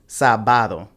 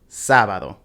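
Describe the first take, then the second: First: The stress is on the middle syllable. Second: The stress is not on the middle syllable. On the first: The speaker calls it wrong. "we'd put the stress on the second to last syllable" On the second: The speaker calls it right. "these are pronounced"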